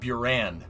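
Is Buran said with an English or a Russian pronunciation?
English. It is said as an English speaker reads it. The speaker calls it wrong. "how we would look at B U R A N. We would say Buran"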